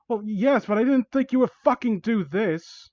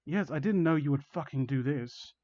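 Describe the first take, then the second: First: High, agitated protest; Jacob. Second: Said in the usual way. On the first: Acted. Victim protests to villain grabbing them, agitated. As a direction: push the pitch up, indignant. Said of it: "think this sounds like Jacob". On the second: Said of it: "It doesn't sound like him at all".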